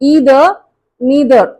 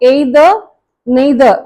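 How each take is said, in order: First: The words begin with an 'ee' vowel. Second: The words begin with an 'ay' vowel. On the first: The speaker calls it right. "American pronunciation" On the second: The speaker calls it wrong. "இந்த ஏய் sound வந்து completely it's wrong"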